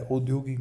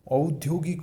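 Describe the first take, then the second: First: औद्योगिक mispronounced with o for au; wrong pronunciation. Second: औद्योगिक opening on a clear au glide; correct pronunciation. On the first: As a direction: begin औद्योगिक on a plain o. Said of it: "औद्योगिक नहीं". (औद्योगिक में औ की जगह ओ) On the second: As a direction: give औद्योगिक a full au. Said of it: "औद्योगिक होता है". (औद्योगिक में साफ़ औ) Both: Shown as a demonstration.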